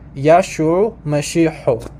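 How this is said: It is said with the Western Syriac pronunciation.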